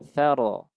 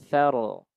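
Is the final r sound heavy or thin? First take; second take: heavy; heavy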